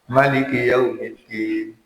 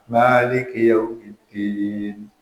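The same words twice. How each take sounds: First: The first vowel of Maliki is kept short. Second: The first vowel of Maliki is drawn out long. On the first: "tidak panjang" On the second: "dengan panjang, dengan matma"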